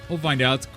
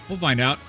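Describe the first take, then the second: No difference in how they are said.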